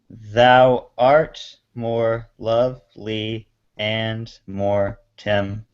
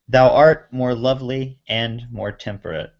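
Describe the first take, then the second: First: It is read slowly, syllable by syllable. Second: It is read at a normal speaking pace.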